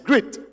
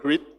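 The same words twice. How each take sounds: First: The vowel is said short. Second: The vowel is said long. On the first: The speaker calls it right. "short vowel sound" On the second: The speaker calls it wrong. "not grit"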